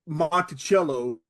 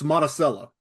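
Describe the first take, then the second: First: It is pronounced the standard, expected way. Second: It is pronounced the local Southern way. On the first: The speaker calls it wrong. "it's not Monticello like like uh, Thomas Jefferson's estate" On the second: The speaker calls it right.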